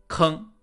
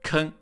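First: The word ends in a back nasal. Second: The word ends in a front nasal. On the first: This is the standard Mandarin pronunciation. The speaker calls it right. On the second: This is the Anhui dialect pronunciation. The speaker calls it wrong.

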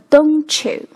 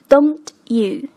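First: The t and you merge into ch. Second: The t and you are said separately.

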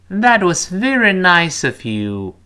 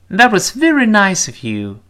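First: The sentence is read slowly. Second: The sentence is read quickly. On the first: "跟老师慢慢读一遍。" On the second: "我们读快点。"

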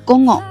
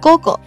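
First: The second g is said as a nasal ng sound. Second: The second g is said as a plain voiced g. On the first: "不读成鼻浊音，不读成午後" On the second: "两个浊音可不可以都给它读成浊音 ... 直接读成午後"

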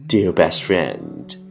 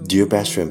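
First: It is spoken at a moderate pace. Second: It is spoken very fast in one breath. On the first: "跟上我的节奏" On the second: "一口气最快语速"

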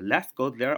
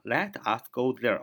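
First: Let and us are joined into one syllable. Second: Let and us are said as two full words. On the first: "连读就是" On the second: "Let 就是let us"

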